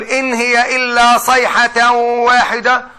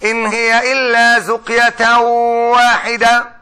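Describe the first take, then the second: First: "صيحة" with emphatic s and ħ, slow chant; reciting with sayha. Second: "زقية" with z and q, slow chant; reciting with zaqya. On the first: Reciting the standard "صيحة" to the class. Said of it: "وبقول". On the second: Reciting the variant "زقية" to the class. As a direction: recite "زقية" slowly, z sound and hard q. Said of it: "وواحد قاعد بيقول لي". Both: Shown as a demonstration.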